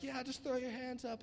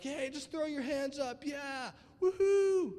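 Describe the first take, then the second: First: Higher-pitched but restrained worship call; mild mock worship hype; worship conference leader. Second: High, loud whooping concert crowd call; excited mock concert shout; concert hype. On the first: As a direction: lightly imitate a worship leader rallying the room. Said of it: "a Hillsong conference". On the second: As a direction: hype up the crowd, ending in a long woohoo. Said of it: "you're at a secular concert and stuff".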